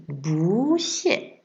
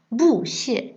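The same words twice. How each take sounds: First: "bu xie" slower, "bu" rising on the second tone; the right way: "bu" rising. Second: "bu xie" with "bu" on the falling fourth tone; the wrong way: "bu" falling. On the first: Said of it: "on dit bu xie". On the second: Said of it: "on dit pas bu xie". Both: Shown as a demonstration.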